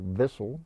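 The word begins with a V sound. "the Germans don't have a W. They have a double V for Vissel"

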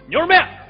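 It is said in a Shaanxi accent. "陕西人就说牛肉面，就那种。"

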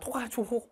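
It is said with French-style sounds and a uvular r. The speaker calls it right. "원래는 토, 토하조 이렇게 발음할까?"

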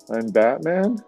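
The voice is pitched very high. "Can you go any higher with that?"

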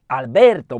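The name is said with an Italian accent. "no chyba to trochę po włosku"

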